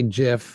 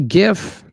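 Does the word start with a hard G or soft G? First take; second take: soft G; hard G. First: It starts with a soft G sound. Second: It starts with a hard G sound. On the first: This is how some other people say it. "Some people say GIF" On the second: This is the speaker's own way of saying it. "I say GIF"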